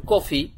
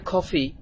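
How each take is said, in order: First: Said in the usual way. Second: কফি with a breathy "kh" onset; British-American pronunciation. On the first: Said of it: "এখন আপনি শিখছেন কফি". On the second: Shown as a demonstration. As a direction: say কফি as "KHO-fi". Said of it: "যখন তারা উচ্চারণ করবে কফি". (কফি-র শুরুতে "খ"-এর মতো উচ্চারণ)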